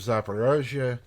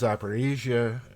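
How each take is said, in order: First: It is pronounced the Russian way, Zaporozhye. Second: It is pronounced the Ukrainian way, Zaporizhzhia. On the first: "I'm obviously using the Russian pronunciation of Zaporozhye" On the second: "the Ukrainian is Zaporizhzhia"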